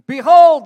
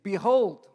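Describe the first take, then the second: First: The word is said forcefully, as an exclamation. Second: The word is said plainly, without exclamatory force. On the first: "That's how he said it" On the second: "so we should actually read it differently"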